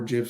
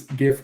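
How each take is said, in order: First: "gif" with a soft g, like jif; soft-g pronunciation. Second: "gif" with a hard g, as in gift; hard-g pronunciation. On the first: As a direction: open "gif" on a j sound. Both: Shown as a demonstration. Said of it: "depending on how you pronounce it".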